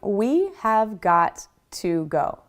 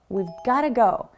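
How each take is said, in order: First: Each word is said separately in full. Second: We and have are blended into one syllable. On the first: The speaker calls it wrong. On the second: The speaker calls it right. "Smoothing these sounds over make it sound more natural and native-like"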